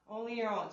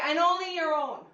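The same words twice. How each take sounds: First: "Only your own" dropped low and soft as a wry aside; teasing aside. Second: Said in the usual way. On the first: Shown as a demonstration. Fitness instructor jokes to class, soft low teasing aside. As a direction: mutter the joke half to yourself. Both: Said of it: "repeated as a softer aside".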